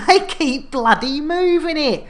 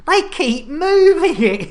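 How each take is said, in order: First: Said in the usual way. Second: Put-on exasperated Cornish accent, higher and louder. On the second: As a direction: cry it out in a hammed Cornish accent. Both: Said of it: "Yeah, great Cornish accent".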